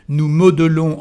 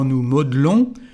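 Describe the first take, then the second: First: The vowel after mod- is fully pronounced. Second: The vowel after mod- is dropped.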